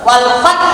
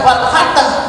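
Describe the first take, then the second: First: The word stops early, without any jolt. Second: An extra vowel is added after the final consonant. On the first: "boten wal fat" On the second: "tidak sampai wal fatah"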